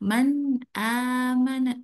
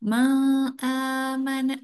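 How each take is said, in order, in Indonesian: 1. Bunyi n terdengar jelas, tanpa dengung sengau. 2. Bunyi n tidak terdengar jelas. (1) "harus terang dan jelas tanpa didengungkan" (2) "jangan ma'amana, jangan ya"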